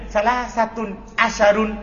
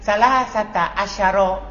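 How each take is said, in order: First: The second word ends in an 'un' sound. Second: The second word ends in a plain 'a' vowel. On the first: The speaker calls it wrong. "Jangan bilang ... Salah" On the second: The speaker calls it right. "Antum bilang"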